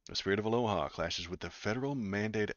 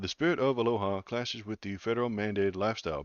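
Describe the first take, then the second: First: It is said in his normal voice. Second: It is said in a put-on Hawaiian voice.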